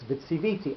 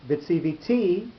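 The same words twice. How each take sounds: First: Vitsiviti with the accent on VEE; normal stress. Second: Vitsiviti with the accent on final TEE; last-syllable stress. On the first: Teacher concluding it is past tense, Vitsiviti stressed on next-to-last VEE. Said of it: "The blessing is already there from the beginning". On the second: Teacher explaining the future-tense form, Vitsiviti stressed on final TEE. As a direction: stress the end: vit-si-vi-TEE. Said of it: "And the one where it's on the". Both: Shown as a demonstration.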